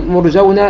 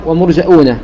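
First: "مرجون" as murjawna, no glottal stop; without hamza. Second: "ومرجؤون" as wa-murja'uuna, with glottal stop; with hamza. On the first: Teacher contrasting two readings, "مرجون" without hamza. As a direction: glide through "مرجون" with an aw sound. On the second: Teacher contrasting two readings, "ومرجؤون" with hamza. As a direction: break "ومرجؤون" with a hamza before long uu. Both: Shown as a demonstration. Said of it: "بالهمزة وبدون همزة".

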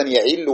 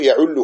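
First: "يعله" as ya'illu, i after the ayn; kasra on the ayn. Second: "يعله" as ya'ullu, u after the ayn; damma on the ayn. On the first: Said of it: "وهذا شاذ". (نطق "يعله" بكسر العين) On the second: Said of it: "قياسه يعله". (نطق "يعله" بضم العين) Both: Shown as a demonstration.

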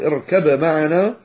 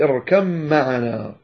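First: "اركب معنا" with a clear b before m; unmerged b. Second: "اركب معنا" as irkam-ma'ana, slow long m; merged m. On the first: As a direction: keep b and m separate in "اركب معنا". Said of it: "بدل أن يقول". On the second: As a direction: melt the b of "اركب" into a held m. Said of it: "فأدغمها". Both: Shown as a demonstration.

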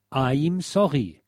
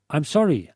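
First: Slow "I'm sorry" with German r; phonetic spelling read out. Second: Said in the usual way. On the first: Shown as a demonstration. Reading the phonetic hint for record dealers, slow German-style pronunciation. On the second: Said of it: "folgender Aussprachehinweis gegeben".

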